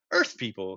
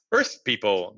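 First: Low, deep alien voice. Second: Low alien voice, a little louder; deep voice, louder. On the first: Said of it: "said the deep voice". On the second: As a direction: firmer deep call over the radio. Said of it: "the voice louder now". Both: A narrator's reading.

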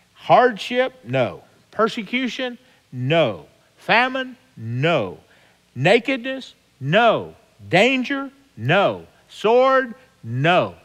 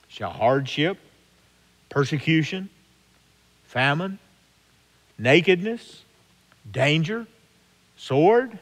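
First: Each trial called out much higher and louder, each answered with a firm no; emphatic call and answer. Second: Each trial read as a rising question, one at a time; list of questions. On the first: Acted. Preacher answering Paul's list to his flock, high loud call and answer. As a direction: hurl each trial out, then slam it down with no. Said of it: "But then he says, "No". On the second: Shown as a demonstration. Preacher reading Paul's list to his congregation, rising questions. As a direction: pose each hardship as a calm open question. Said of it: "Who shall separate us".

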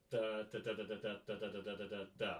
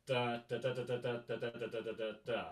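First: Da da da with the inflection, softer; right rhythm. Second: Even, flat da da da, every beat the same; wrong rhythm. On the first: Teacher showing the right rhythm, inflected. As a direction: sing the rhythm as it should feel. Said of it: "That's the fundamental rhythm". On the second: Teacher demonstrating the wrong rhythm, even and flat. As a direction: sing the rhythm wrong, evenly. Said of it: "That's not the rhythm". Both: Shown as a demonstration.

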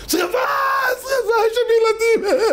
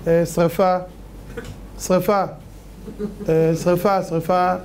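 First: Very high, frantic acted shriek; panicked fire scream. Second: Mention a fire as if it were nothing; listless, halting, everyday-pitched report; unbothered mock alarm. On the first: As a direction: scream the alarm to save children. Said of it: "מה אתה צועק". (צרחת בהלה גבוהה) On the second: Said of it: "אז הוא עושה ככה". (אדיש, בלי שום בהלה)

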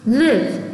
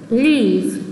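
First: "Live" with a short, lax capital-I vowel. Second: "leave" with a long, tense ee. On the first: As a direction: say "Live" with a relaxed i, not ee. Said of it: "발음이 다릅니다". ("Live"를 짧고 느슨한 '이' 소리로) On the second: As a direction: stretch the vowel of "leave", lips wide. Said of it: "길게 발음하는 것을 표현합니다". ("leave"를 길고 또렷한 장음 '이'로) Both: Shown as a demonstration.

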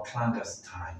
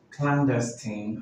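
First: Clandestine ending in "tine", said slowly; alternative pronunciation. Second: Clandestine ending in "tin", said slowly; alternative pronunciation. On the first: Teacher repeating other option for learners, clandestine with long final i. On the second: Teacher repeating one option for learners, clandestine with short final i. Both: Shown as a demonstration. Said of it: "can be pronounced as".

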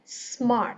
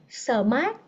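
First: "Smart" with only breath on the s, no vowel; clean s cluster. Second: "Smart" said as sơ-mart with an extra uh; wrong added vowel. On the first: Teacher modelling "Smart" without the added ơ. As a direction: hiss the s straight into mart in "Smart". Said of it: "hơi gió ra thôi". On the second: Teacher imitating learners adding ơ in "Smart". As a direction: slip an ơ between s and m in "Smart". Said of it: "hay thêm chữ ơ vô chỗ này nè". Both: Shown as a demonstration.

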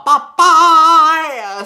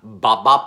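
First: A high, loud, sing-song bye bye; sing-song goodbye. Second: Said in the usual way. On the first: Real, not acted. Host trilling goodbye to viewers, high loud sing-song. Signing off the show.

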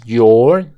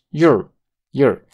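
First: YOUR with a full, drawn-out OR; louder, stretched "yor" for YOUR; full vowel. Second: YOUR shortened to "yer"; quick, weak "yer" for YOUR; reduced schwa. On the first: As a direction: say YOUR slowly and unreduced. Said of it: "no es your". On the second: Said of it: "lo reducimos por una schwa". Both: Shown as a demonstration.

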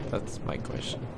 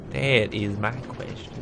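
First: Muttered whisper of That's my question; quiet aside to himself; under breath. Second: Slow That is my question with weight on That; deliberate, rising emphasis on That; emphatic repeat. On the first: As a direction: toss the line off under the breath, unvoiced. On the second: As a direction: restate it slowly, leaning on That. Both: Real, not acted.

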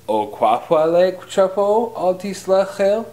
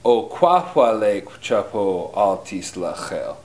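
First: "O kwahwa le chapo al tislachel" climbing high to the end; English question rise. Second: "O kwahwa le chapo al tislachel" stepping steadily down; downward question inflection. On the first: Teacher showing learners what not to say, with rising question inflection. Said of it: "Notice the inflection going up". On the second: Teacher modelling the correct question, with falling inflection. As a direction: let the pitch fall through to "tislachel". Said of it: "say it with a downward inflection". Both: Shown as a demonstration.

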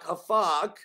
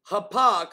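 First: "hafak" said with an f, ha-FAK; pronunciation demo. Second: "hapak" said firmly with a p, ha-PAK; louder "hapak", p in the middle; pronunciation demo. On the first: Preacher giving the second Hebrew variant, "hafak" with an f. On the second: Preacher giving the first Hebrew variant, "hapak" with a hard p. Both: Shown as a demonstration. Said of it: "that's how you pronounce it".

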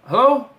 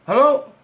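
First: Loud, higher hello into a dead line; calling hello. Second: Loud, higher hello rising at the end. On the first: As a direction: call out to check he's still there. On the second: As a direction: ask again, doubting anyone's there. Line goes dead. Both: Acted.

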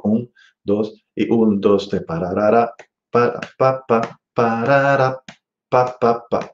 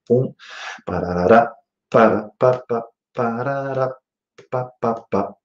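First: Scat phrase pushing beats two and four; accents on two and four. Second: Scat phrase pushing beats one and three; accents on one and three. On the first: Teacher demonstrating phrasing accented on two and four. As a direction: sing it leaning on two and four. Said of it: "Voy a acentuar ahora en dos y cuatro". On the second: Teacher demonstrating phrasing accented on one and three. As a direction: sing it leaning on one and three. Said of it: "acentuando en uno y tres". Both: Shown as a demonstration.

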